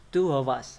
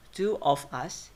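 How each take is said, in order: First: Two of us run together as two-uv-us; weakened with schwa. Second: Two of us word by word, full o in of; full vowels. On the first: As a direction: reduce of to schwa and link it to us. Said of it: "By using schwa". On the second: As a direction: keep of separate and unreduced in two of us. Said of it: "Of become of". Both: Shown as a demonstration.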